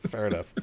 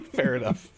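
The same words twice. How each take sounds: First: Said in the usual way. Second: Chuckling through it; laughing. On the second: Real, not acted. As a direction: laugh while saying it. Laughing after the Sega joke.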